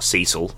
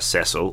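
First: The name is said in an American pronunciation. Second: The name is said in a non-American pronunciation.

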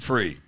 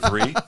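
First: It starts with an 'f' sound. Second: It starts with a 'th' sound.

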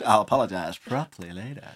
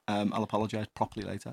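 First: The tone sounds warm and polite. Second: The tone sounds curt and rude. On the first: The apology is sincere. The speaker calls it right. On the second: The apology is not sincere. The speaker calls it wrong.

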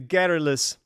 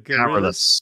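First: The stress is on the first syllable. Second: The stress is on the second syllable. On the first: The speaker calls it right. "That's why the garrulous podcast" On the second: The speaker calls it wrong. "I put the stress on the wrong syllable"

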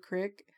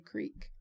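First: It is said with the local short vowel, crick. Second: It is said with a long vowel, creek.

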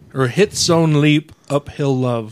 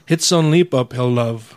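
First: It is said at a slower pace. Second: It is said at a faster pace.

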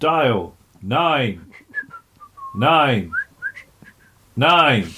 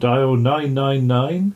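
First: Each nine is said slowly with long pauses. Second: The number is said quickly without pauses. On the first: The speaker calls it right. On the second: The speaker calls it wrong.

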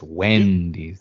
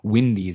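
First: The first vowel sounds like 'eh'. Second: The first vowel sounds like 'ih'. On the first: The speaker calls it right. "it's Wendy's" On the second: The speaker calls it wrong. "it's not Wendy's"

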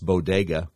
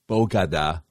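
First: The word is said as bo-de-ga. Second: The word is said as bo-ga-da. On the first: The speaker calls it right. "It's bodega" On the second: The speaker calls it wrong. "It's not bogada"

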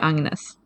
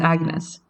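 First: The name is pronounced in a Swedish way. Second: The name is pronounced in an English way. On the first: The name is said as in its own language. "you say Agnes in Swedish" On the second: The name is adapted for English listeners. "in English speaking contexts, when she introduces herself"

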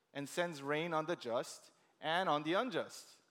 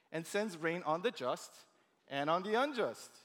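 No difference in how they are said.

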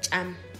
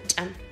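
First: The word is said slowly, vowel clearly drawn out. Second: The word is said quickly, vowel barely heard. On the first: "Si lo dijera despacio sería cham" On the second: "pero ya rápido cham"

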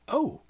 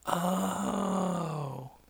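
First: It sounds surprised. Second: It sounds like slow understanding.

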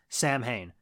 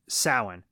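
First: The word is read as English spelling suggests. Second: The word is not read as its spelling suggests. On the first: The speaker calls it wrong. "pronounces as Samhain. That is not how you say the word" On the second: The speaker calls it right. "It's Samhain"

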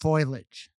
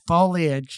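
First: The first part sounds like the word 'foil'. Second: The first part does not sound like 'foil'. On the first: The speaker calls it wrong. "not foliage" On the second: The speaker calls it right. "your buddy Craig said it's foliage"

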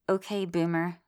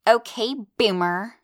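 First: It is said flat and unexcited. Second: It is said sassy, like a teenager.

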